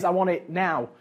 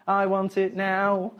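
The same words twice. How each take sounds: First: Said in the usual way. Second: Drawn out. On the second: Shown as a demonstration. Childish demand said twice.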